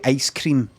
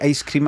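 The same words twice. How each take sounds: First: It is said in a way that sounds American. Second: It is said the speaker's usual, non-American way. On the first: Nobody the speaker grew up with says it this way. The speaker calls it wrong. "it sounds incredibly American" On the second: This is how the speaker and people around them say it. The speaker calls it right. "I say ice cream"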